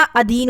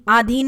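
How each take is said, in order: First: अधीन with short opening a; correct form. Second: आधीन with long opening aa; wrong form. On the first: Teacher giving students the correct word, अधीन with short a. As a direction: start अधीन on a short schwa. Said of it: "अधीन होता है". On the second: Teacher showing students the mistake, आधीन with long aa. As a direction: say आधीन with a drawn-open first vowel. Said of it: "आधीन नहीं होता". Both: Shown as a demonstration.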